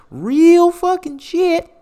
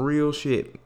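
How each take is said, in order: First: REAL stretched long, high and loud; slow, loud, high-pitched wail on "Real fucking shit"; drawn-out emphasis. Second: Said in the usual way. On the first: Real, not acted. Podcaster warns listeners of heavy news, drawn-out emphasis.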